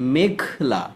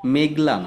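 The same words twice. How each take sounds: First: The middle consonant is said with strong aspiration. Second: The middle consonant is said without aspiration. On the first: The speaker calls it right. "ঘ, উচ্চারণটা যেন পরিষ্কার থাকে" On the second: The speaker calls it wrong. "মেঘলা না"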